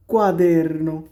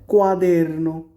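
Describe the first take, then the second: First: কোয়াদেরনো again, falling and settled; repeated Italian quaderno; repeated model. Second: কোয়াদেরনো said clearly syllable by syllable; Italian quaderno spoken as a teacher; Italian word. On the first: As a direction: confirm কোয়াদেরনো for learners. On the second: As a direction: model কোয়াদেরনো for the class. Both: Shown as a demonstration. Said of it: "খাতাকে কি বলে".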